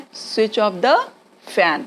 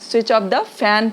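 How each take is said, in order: First: Said in the usual way. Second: Very slow, clearly separated words; slow teaching demo. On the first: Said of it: "क्या बोलना है". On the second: Shown as a demonstration. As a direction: model it slowly for the class. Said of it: "please बोल दीजिए".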